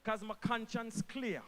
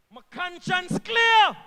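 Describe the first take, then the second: First: Said in the usual way. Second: Slow loud shout. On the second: Real, not acted. Minister to the crowd, slow proud shout. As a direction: shout it slowly and higher. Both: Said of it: "repeats line for emphasis".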